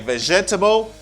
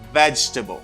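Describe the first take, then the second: First: The word is said with four syllables. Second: The word is said with three syllables. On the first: The speaker calls it wrong. "you don't say vegetable" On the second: The speaker calls it right. "You don't pronounce this syllable. You say vegetable"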